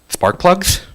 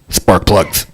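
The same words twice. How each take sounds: First: It is said in a puzzled, questioning way. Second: It is said in a grumpy, curt way.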